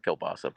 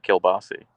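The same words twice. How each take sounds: First: Said in the usual way. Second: "kielbasi" with the last vowel turned to ee; Pittsburgh pronunciation. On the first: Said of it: "why they spell it kielbasa". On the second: Shown as a demonstration. Streamer contrasting spelling with local speech, Pittsburgh pronunciation. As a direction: say "kielbasi", ending in ee instead of ah. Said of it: "but they pronounce it kielbasi".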